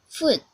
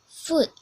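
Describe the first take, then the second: The two takes are said the same way.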